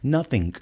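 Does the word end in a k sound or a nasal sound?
k sound. The word ends with an audible k sound. "não colocam o G, mas colocam um C"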